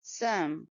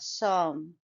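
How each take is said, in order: First: Some with a short, soft schwa; correct schwa. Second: Som with a drawn open o vowel; wrong full vowel. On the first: Teacher correcting to some, weak schwa vowel. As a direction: softly reduce some to a neutral vowel. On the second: Teacher showing the mistaken full o in som. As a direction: say som with a full rounded o, no schwa. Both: Shown as a demonstration. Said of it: "It's not som".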